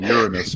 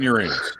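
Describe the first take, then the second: First: URANUS stressed on the first syllable; correct planet pronunciation. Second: URANUS stressed on the middle syllable; joke pronunciation. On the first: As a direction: say Uranus as YOOR-uh-nus, unstressed ending. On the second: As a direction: say Uranus as yoo-RAY-nus. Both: Shown as a demonstration. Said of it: "the planet is actually called Uranus".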